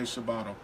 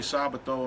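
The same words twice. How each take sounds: First: The name is said with an American pronunciation. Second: The name is said with an Italian pronunciation. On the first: "Americans say" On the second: "Italians say"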